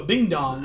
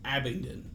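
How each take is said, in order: First: The name is said as a bing-dong. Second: The name is said as Abingdon. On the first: The speaker calls it wrong. "I couldn't say Abingdon" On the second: The speaker calls it right.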